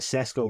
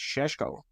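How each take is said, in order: First: The name is said with plain s sounds. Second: The name is said with sh sounds.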